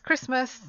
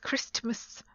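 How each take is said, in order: First: The T sound in the middle is silent. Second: The T sound in the middle is pronounced. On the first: The speaker calls it right. "So it's Christmas, even though there's a T there" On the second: The speaker calls it wrong. "nobody says Christmas. That's quite hard to say"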